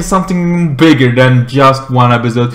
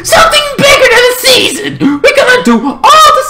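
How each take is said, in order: First: Said in the usual way. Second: High, fast shriek; hyped escalation. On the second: Pretend. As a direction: squeal it as the bigger reveal. Escalates the announcement.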